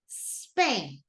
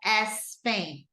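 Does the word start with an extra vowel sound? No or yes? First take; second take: no; yes. First: The word starts directly with the s sound. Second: An extra vowel sound comes before the s. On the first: The speaker calls it right. "but Spain" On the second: The speaker calls it wrong. "No S Spain"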